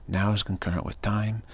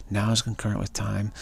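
The two takes are said the same way.

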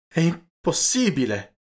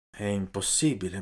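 First: Disbelieving cry, higher and louder, slowed; shocked exclamation. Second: Quiet, resigned repeat of the phrase. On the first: Gibetti hearing his girl is married, shocked cry. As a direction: blurt it out in disbelief, drawn out. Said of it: "esclamò il Gibetti". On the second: Gibetti accepting the news, quiet resignation. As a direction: let it sink in, softly and defeated. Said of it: "esclamò". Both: A narrator's reading.

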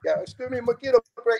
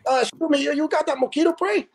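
First: High, meek retelling; imitating the caller again. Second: High timid voice; imitating the late caller. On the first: Laughing while replaying the doorstep caller, high meek voice. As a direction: mimic the timid caller. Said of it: "repeating the caller's line". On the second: Night caller at the firehouse door, high meek voice. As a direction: ask sheepishly like a stranger at the door. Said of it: "and he goes".

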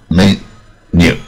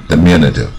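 First: Diminutive broken into slow, separate syllables with pauses. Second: Said in the usual way. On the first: Shown as a demonstration. Teacher showing students where the stress falls, syllable by syllable. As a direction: sound out diminutive slowly, one syllable at a time. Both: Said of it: "重音在M这边".

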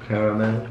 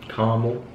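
First: Caramel as care-a-mel, three syllables; Caramel with the middle a sounded, care-uh-mel. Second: Caramel as car-mel, two syllables; Caramel with the middle dropped, car-mul. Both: Shown as a demonstration. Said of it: "How do you say it?".

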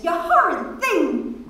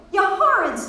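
First: High playful scold; teasing protest. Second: Higher, sweeter scold; sweeter, golden. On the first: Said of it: "Miss Kennedy protested". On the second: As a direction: melt it into sweetness. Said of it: "more goldenly". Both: A narrator's reading.

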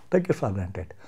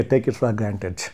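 First: A sarcastic whispered concession. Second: Said in the usual way. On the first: Real, not acted. Speaker to the TV anchor, conceding in a whisper. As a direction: repeat it in a whisper, much softer.

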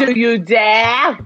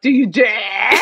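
First: Slow, loud, theatrical dare; dramatic challenge. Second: Quicker theatrical challenge with a rising end; alternative dramatic dare. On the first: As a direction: draw out the dare with booming drama. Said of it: "Or, like". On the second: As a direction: throw out the dare, lifting the end. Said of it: "Something like that". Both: Acted.

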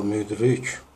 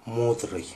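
First: «мудрик» with a fronted «у», like ü; original pronunciation. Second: «мудрый» with a back Russian «у»; altered pronunciation. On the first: Teacher shows the original word, fronted vowel in «мудрик». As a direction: say «мудрик» with lips rounded, vowel forward. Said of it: "А слово". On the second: Teacher shows the changed word, Russian «мудрый». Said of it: "звучит как". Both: Shown as a demonstration.

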